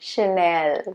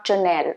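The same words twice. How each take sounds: First: The word begins with a 'sh' sound. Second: The word begins with a 'ch' sound. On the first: The speaker calls it right. "Sh, not ch" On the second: The speaker calls it wrong. "Sh, not ch. Not Chanel"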